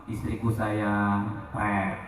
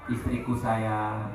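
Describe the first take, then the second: First: Slow, soft, lower loving call; husband sweetly calling his wife, mock tender; tender sweet talk. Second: Slow, soft, lower loving call; husband sweetly asking wife for coffee, tender; tender sweet talk. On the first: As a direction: coo it gently to your wife. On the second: Retold or imitated. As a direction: murmur it lovingly, drawn out. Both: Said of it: "ngomongnya lemah lembut".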